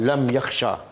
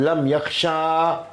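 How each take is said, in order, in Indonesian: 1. Vokal akhirnya dibaca pendek. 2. Vokal akhirnya dibaca panjang. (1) "Dia tak boleh baca panjang" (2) "Kalau baca panjang"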